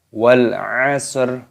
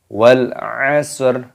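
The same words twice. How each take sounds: No difference in how they are said.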